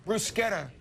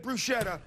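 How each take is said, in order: First: Bruschetta as broo-SKET-ta; right pronunciation. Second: Bruschetta as broo-SHET-ta; wrong pronunciation. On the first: Host teaching the Italian: bruschetta with k. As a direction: say bruschetta with a hard k. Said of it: "the C H is a K sound". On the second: Host admitting he always said it: bruschetta with sh. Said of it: "No, it's bruschetta". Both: Shown as a demonstration.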